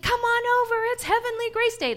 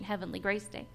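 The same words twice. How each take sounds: First: High, loud cheerful call. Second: Said in the usual way. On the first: Retold or imitated. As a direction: shout it across the yard, high and loud. Daughter calling out on Halloween. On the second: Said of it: "That's what she called Halloween".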